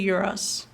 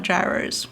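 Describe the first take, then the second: First: "gyros" said YEE-ross, with a y sound; Adelaide Greek-style pronunciation. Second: "gyros" said JAI-rohz, like "gyrate"; rejected English pronunciation. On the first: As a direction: say "gyros" the Greek way, starting like "year". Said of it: "we say gyros and not gyros". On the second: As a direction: say "gyros" with a hard j and long i. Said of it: "and not gyros". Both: Shown as a demonstration.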